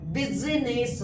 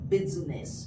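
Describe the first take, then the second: First: The second 'i' is pronounced as a syllable. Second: The second 'i' is silent, not pronounced. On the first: The speaker calls it wrong. "बिजनेस नहीं पढ़ना है" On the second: The speaker calls it right. "Right pronunciation क्या होगा?"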